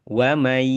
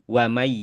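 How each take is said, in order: The two takes are said the same way.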